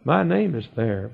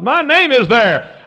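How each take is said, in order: First: Said in the usual way. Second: High, loud, stretched-out proclamation; shouted preaching. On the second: Real, not acted. Preacher rejoices over Book of Life, shouted preaching. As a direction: shout it slowly, pitched way up. Repeats the line at full force.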